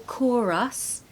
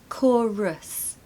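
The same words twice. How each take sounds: First: The final syllable has a full, clear vowel. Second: The final syllable has a weak schwa vowel. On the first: The speaker calls it wrong. "don't say chorus" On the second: The speaker calls it right. "there's a schwa at the end"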